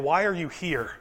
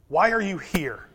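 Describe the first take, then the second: First: "are" leaned on in a quiet, falling question; stress on ARE. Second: "why" leaned on, falling and quiet; stress on WHY. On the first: Preacher quietly asks the congregation, leaning on "are". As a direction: press on "are", keep it soft. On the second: Preacher asks again, now pressing on "why". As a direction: hit "why", let the rest fall away. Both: Shown as a demonstration. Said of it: "repeats the question with new stress".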